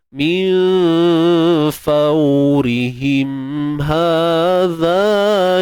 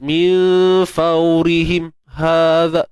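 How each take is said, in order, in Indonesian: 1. Huruf m ditahan halus, dengan dengung nasal yang lembut. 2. Huruf m terputus mendadak, seperti bunyi kaget. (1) "Dia ada sifat tawassut dia. Ha, kemudian dia ada sifat gunnah dia pada mim tu" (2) "bukan kata jelas min faurihim hadha him. Bunyi terkejut gitu"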